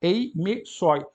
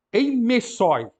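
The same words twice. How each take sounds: First: "eimesoi" repeated slowly, e-me-SOI; slow Greek reading. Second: "eimesoi" said high and loud, ei-ME-soi; Greek word modelled. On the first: Teacher repeats the word slowly for students, careful. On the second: Teacher reads a word from the second paragraph to the class, clear. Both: Shown as a demonstration. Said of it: "aquele E também o acento está agudo".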